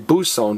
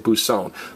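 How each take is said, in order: First: The stress is on the first syllable. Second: The stress is on the last syllable. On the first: The speaker calls it wrong. "we don't say buson" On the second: The speaker calls it right. "we say buson"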